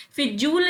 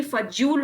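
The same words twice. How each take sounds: First: फिजूल said "fi-jool"; short "i" opening फिजूल; higher फिजूल with "fi"; wrong first vowel. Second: फजूल said "fa-jool"; short "a" opening फजूल; "fa" at the start of फजूल; correct first vowel. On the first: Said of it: "फिजूल नहीं". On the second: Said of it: "फजूल होता है". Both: Shown as a demonstration.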